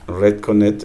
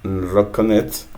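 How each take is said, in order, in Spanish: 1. La primera vocal suena como la 'e' en 'red'. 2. La primera vocal suena como la 'o' en 'rock'. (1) "empiezas en E" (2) "que él nos corrige"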